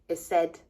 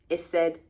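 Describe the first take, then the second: No difference in how they are said.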